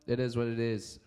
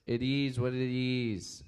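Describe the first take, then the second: First: Said in the usual way. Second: Lazy slow echo of the video line; slowly drawled like a chill group chant; slow drawn-out catchphrase. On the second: Retold or imitated. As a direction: stretch each word out slowly, savoring it. Repeating catchphrase from funny video.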